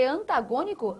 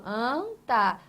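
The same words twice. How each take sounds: First: Said in the usual way. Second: "Antagônico" split into an, ta, gô, ni-co; syllable by syllable. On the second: Shown as a demonstration. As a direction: separate the syllables of "Antagônico", leaning on gô. ("Antagônico" pronunciado sílaba por sílaba) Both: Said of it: "Tem a sua tonicidade aqui".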